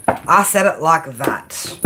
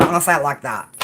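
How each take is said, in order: First: I SAID IT LIKE THAT, each word drawn out; slow, deliberate emphasis. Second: Said in the usual way. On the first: Shown as a demonstration. Card reader driving a warning home to Leo, slow and deliberate. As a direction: spell it out at half speed.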